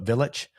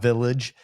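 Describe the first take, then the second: First: It ends with a throaty ch sound. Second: It ends with a soft j sound. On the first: The speaker calls it right. "but Village" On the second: The speaker calls it wrong. "not village"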